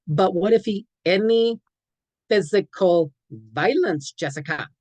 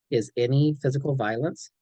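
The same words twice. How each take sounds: First: Higher, louder pleading protest; doubtful teen objection. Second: Said in the usual way. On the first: Shown as a demonstration. Teen talks back to the counselor, high and pleading. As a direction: push back like a teen who can't believe it. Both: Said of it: "Sorry, kid, these are brute facts".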